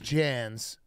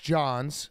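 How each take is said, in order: First: The vowel sounds like the one in 'Jan'. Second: The vowel sounds like the one in 'John'. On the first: The speaker calls it right. "His name is Jans" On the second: The speaker calls it wrong. "I was calling him Chris Johns"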